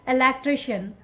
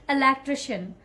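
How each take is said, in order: Both takes have the same delivery.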